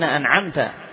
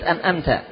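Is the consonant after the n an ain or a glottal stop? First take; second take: ain; glottal stop. First: The consonant after the n is a throaty ain. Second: The consonant after the n is a glottal stop. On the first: The speaker calls it right. "بالعين" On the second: The speaker calls it wrong. "وليست أنأمت بالهمزة"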